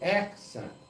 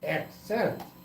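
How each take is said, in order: First: The stress is on the first syllable. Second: The stress is on the later syllable. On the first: "if you want to accent the first syllable in the word" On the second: "if you want to accent the middle"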